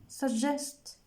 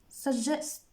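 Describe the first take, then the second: No difference in how they are said.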